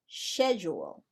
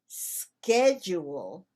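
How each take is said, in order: First: The word is said in a British accent. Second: The word is said in an American accent. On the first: "As a British speaker" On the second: "As an American speaker"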